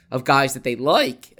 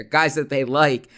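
First: Voice cracking. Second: Said in the usual way. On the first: Real, not acted. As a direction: voice cracks on the last word. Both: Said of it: "my voice cracked there".

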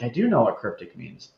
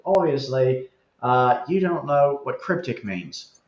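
First: Said in the usual way. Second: Lightly put-on Australian accent; mild mock-Australian accent; Mark Reed. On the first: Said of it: "And I was like". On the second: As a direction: imitate an Australian commenter correcting someone, lightly. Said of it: "I'm doing the Australian accent".

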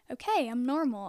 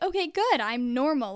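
First: Said in the usual way. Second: Put-on a kid telling herself she's fine, voice jumping up on good, then relieved; relieved self-talk. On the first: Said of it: "I was like". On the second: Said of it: "it felt good".

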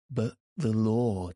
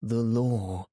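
First: Firm, stern reproach; stern cry. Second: Sterner repeat, stress on law; stern cry. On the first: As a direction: hold the line on the law. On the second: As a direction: press hard on law. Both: A narrator's reading. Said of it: "cried Ak sternly".

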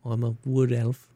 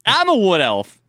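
First: Wood elf voice. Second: Loud high mocking echo; mocking shout. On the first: Pretend. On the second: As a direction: shout it back at him, mocking. Mocking friend's elf voice.

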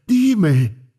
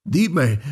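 First: Higher and louder anguished cry of Dime. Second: Grieving mother cries out, raised high; a first anguished call, pitched up; crying out. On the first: Grieving mother begs the doctor, louder cry. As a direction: push the second dime up into a cry. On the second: Grieving mother to the doctor, crying out. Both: A narrator's reading. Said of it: "gritó al médico diciendo".

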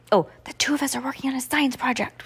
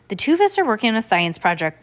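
First: Breathy stage whisper. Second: Said in the usual way. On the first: A narrator's reading. Heidi to little brother about Stanley, whispered. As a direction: whisper it so nobody overhears. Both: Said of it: "whispered Heidi".

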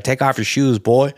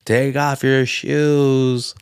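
First: Lightly imitated Arkansas order; a hint of Arkansas, at talking pace; Arkansas husband. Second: Very slow, drawn-out imitation; awkward Arkansas husband. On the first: Husband orders the visitor, mild mock Arkansas. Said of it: "It's like Arkansas". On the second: Husband orders the visitor at the door, awkward drawl. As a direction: stretch it out awkwardly, as a retold husband. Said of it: "Like, all awkward. It's like Arkansas".

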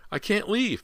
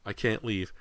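First: Very high, desperate refusal; shrieked. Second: Raised, strained refusal; refuse, holding back the shriek; mild protest. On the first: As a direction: shriek it as a frantic mother. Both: A narrator's reading. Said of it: "Missus Fraser shrieked".

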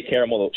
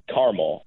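First: Said in the usual way. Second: "caramel" in two syllables, CAR-mel; imitating wife's "caramel" as CAR-mul; wife's pronunciation. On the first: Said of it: "She says caramel". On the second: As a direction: say "caramel" as CAR-mul, middle vowel dropped. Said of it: "she doesn't say caramel".

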